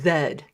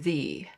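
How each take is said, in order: First: The letter is said the official Canadian way. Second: The letter is said the non-Canadian way. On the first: "here in Canada, uh, we are supposed to pronounce the letter Z as Z" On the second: "as opposed to Z"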